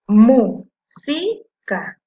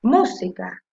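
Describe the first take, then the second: First: "música" loud and very slow, in three chunks; syllable by syllable. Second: Said in the usual way. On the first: Shown as a demonstration. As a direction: punch out "mú", "si", "ca" separately. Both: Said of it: "Y ahora la separé en sílabas".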